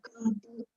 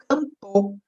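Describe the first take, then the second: First: The final vowel is a weak, devoiced u. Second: The final vowel is a full, clear o.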